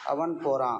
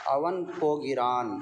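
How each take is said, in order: First: The verb is pronounced in a shortened form. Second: The verb is pronounced in its full form. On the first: This is how it is usually spoken. "इस तरह से आम तौर से बोलते हैं" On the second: This is how it is read. "इस तरह से पढ़ते हैं"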